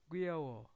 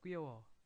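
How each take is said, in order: First: The word is said slowly and carefully. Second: The word is said quickly and run together.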